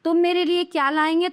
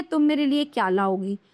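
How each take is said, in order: First: "लाएंगे" left up with a rise; "लाएंगे" offered as the faulty form, open-ended; wrong example. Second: "लाओगी" settling downward; correct example. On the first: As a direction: lift the tune into "लाएंगे". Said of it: "ये तो अशुद्ध वाक्य हैं". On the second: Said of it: "ये शुद्ध हैं". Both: Shown as a demonstration.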